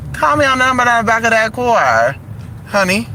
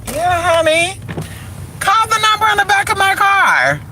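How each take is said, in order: First: Sass it, less squeaky; higher sassy take. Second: Much higher, thin falsetto read; high squeaky take. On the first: Showing the car line multiple ways, sassy higher voice. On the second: Showing the car line multiple ways, squeaky falsetto. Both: Shown as a demonstration. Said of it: "I can say it multiple ways".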